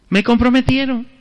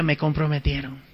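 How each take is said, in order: First: Said in the usual way. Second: Soft, low muttered dismay; muttered to self. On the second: Retold or imitated. Priest muttering to himself, softly, that he's trapped. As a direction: mumble it under your breath. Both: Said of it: "Bueno, dije".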